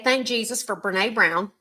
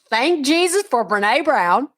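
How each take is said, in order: First: It is said at normal volume. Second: It is said louder.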